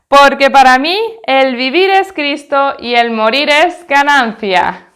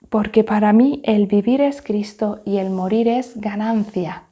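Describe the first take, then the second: First: It is said very loudly and forcefully. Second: It is said very softly and quietly. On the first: "lo vamos a decir bien fuerte que se enteren los vecinos" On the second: "Vamos a decirlo ahora muy bajito"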